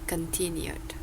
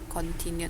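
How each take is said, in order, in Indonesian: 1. Vokal pertama pendek dan tereduksi. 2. Vokal pertama itu o yang penuh dan bulat. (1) "tapi con" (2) "nggak boleh o penuh"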